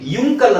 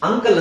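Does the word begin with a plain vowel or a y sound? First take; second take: y sound; plain vowel. First: The word begins with a 'yu' sound. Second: The word begins with a plain 'uh' vowel. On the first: The speaker calls it wrong. "ಯುಂಕಲ್ ಅಂತ ಹೇಳಲ್ಲ" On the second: The speaker calls it right. "ಅಂಕಲ್ ಅಂತ ಹೇಳ್ತೀವಿ"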